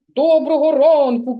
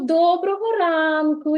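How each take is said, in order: First: The greeting is said in a gloomy, flat tone. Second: The greeting is said in a cheerful, smiling tone. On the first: The greeting feels unpleasant to the listener. The speaker calls it wrong. "похмуре привітання" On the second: The greeting feels pleasant to the listener. The speaker calls it right. "і посміхнусь"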